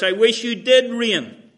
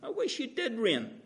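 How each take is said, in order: First: Loud, higher biting sarcasm; sarcastic. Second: Higher, softer dry sarcasm; sarcastic. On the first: Paul needling the Corinthians, loud sarcastic jab. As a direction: throw the wish back at them mockingly. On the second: Paul repeating the jab to the Corinthians, soft sarcasm. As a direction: say it with a quiet mocking edge. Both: Retold or imitated. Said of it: "And it's just all sarcasm".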